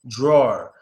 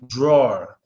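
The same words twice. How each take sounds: No difference in how they are said.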